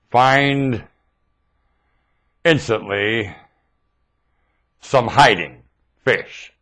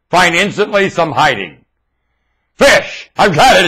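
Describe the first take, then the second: First: "Find... instantly... some hiding... Fish" with long pauses between words, soft; spelled out slowly. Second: Triumphant reveal of the acronym; eureka. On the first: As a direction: work the acronym out word by word. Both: Shown as a demonstration. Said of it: "It's an acronym!".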